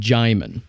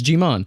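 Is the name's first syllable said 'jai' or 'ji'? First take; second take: jai; ji. First: The first syllable is said as 'jai'. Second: The first syllable is said as 'ji'. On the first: The speaker calls it right. "it's pronounced Jaimin" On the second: The speaker calls it wrong. "I pronounced it Jiman"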